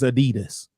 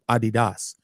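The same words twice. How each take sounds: First: It is said with the American pronunciation. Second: It is said with the European pronunciation. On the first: "America's the only place to say is Adidas" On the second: "that's the way you say it in Europe"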